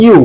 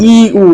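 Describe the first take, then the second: First: ইউ joined into one gliding "yu" syllable; correctly pronounced ইউ. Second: ইউ split into two separate drawn-out vowels, "ee, oo"; mispronounced ইউ. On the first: Teacher correcting the common mistake, ইউ said as one syllable "yu". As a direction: glide ইউ quickly together as "yu". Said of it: "আসলে এটা ইউ না". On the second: Teacher showing students the common mistake, mispronounced ইউ as "ee-oo". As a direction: say ইউ wrongly as a long "ee" then "oo". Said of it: "অনেকে উচ্চারণটা ভুল করে". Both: Shown as a demonstration.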